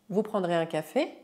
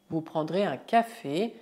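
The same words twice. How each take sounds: First: The voice rises at the end. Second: The voice falls or stays level at the end. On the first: It asks whether the person will have coffee. "mudar a entonação dela" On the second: It states that the person will have coffee. "a frase afirmativa vous prendrez un café"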